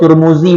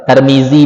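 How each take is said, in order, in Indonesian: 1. Vokalnya bunyi u, seperti pada Turmuzi. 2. Vokalnya bunyi a, seperti pada Tarmizi. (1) "nah ente doma" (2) "Nah ente fathah"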